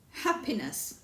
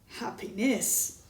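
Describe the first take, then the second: First: The stress is on the first syllable. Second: The stress is on the third syllable. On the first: "The first syllable" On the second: "Third syllable"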